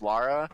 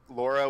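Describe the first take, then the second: First: The first vowel sounds like the vowel in 'car'. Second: The first vowel sounds like the vowel in 'law'. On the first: "as Lara, it's just because you have an accent" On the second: "L- Laura with a U"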